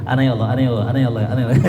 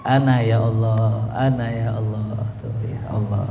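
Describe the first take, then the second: First: "Ana ya Allah" gabbled fast, words running together; rushed dhikr. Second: Savoured dhikr. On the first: Preacher mocking hurried chanting, said too fast. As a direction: rattle off "ana ya Allah" carelessly, too quickly. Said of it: "jangan jadi kayak wiridan cepet... Kagak gitu". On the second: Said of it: "Jadi dinikmatin tuh". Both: Shown as a demonstration.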